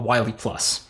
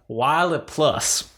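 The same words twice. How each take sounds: First: It is said in the speaker's ordinary accent. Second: It is said in an imitated Southern accent.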